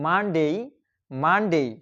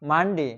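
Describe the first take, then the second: First: "মানডেই" with long gliding "dei" ending; correct pronunciation. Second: "মানডে" with short plain "de" ending; wrong old pronunciation. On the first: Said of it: "এটার সঠিক উচ্চারণ হচ্ছে". ("মানডেই" সঠিকভাবে, শেষে টানা "ডেই") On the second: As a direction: say "মানডে" as "man-de", no glide. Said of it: "আমরা উচ্চারণ করতাম". ("মানডে"-র ভুল উচ্চারণ, শেষে শুধু "ডে") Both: Shown as a demonstration.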